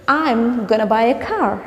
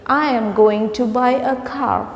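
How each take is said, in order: First: Going to is reduced to gonna. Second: Going to is said fully as two words. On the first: The speaker calls it right. "Instead of that, you can say" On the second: The speaker calls it wrong. "You don't want to say"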